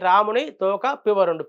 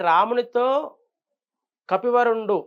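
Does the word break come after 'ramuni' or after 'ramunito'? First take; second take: ramuni; ramunito. First: The break falls after 'ramuni', before 'toka'. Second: The break falls after 'ramunito', before 'kapivarundu'. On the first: Rama's tail spoke, which makes no sense. The speaker calls it wrong. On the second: The best of monkeys spoke to Rama. The speaker calls it right.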